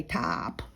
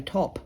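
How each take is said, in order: First: "top" as a long taahp; American drawn-out o. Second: "top" with a short rounded o; Australian short o. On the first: Retold or imitated. Mocking how Americans say it, "top" as taahp. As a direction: stretch "top" into an open American ah. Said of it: "Americans say top". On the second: Shown as a demonstration. Aussie showing how we say it, short-o "top". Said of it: "we say top".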